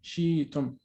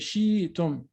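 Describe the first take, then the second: First: A y-like glide replaces the stop. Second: The same.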